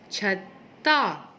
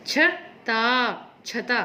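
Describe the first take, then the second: First: छत्ता slowly, त held; stress on the doubled त. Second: छता very slowly, single त; wrong word. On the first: Teacher stressing the double त. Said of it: "त पर जोर दिया जा रहा है". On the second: Teacher reading the wrong word slowly. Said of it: "अब छता होता है या छत्ता होता है". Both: Shown as a demonstration.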